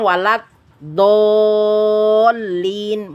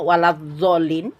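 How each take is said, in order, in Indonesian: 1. Konsonan kunci terdengar seperti d tebal. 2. Konsonan kunci terdengar seperti z. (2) "belajar dan belum bisa, kemudian diucapkan"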